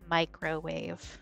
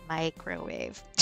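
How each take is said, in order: First: The word is said with careful, clear enunciation. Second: The same.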